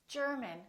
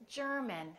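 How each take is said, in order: The two takes are said the same way.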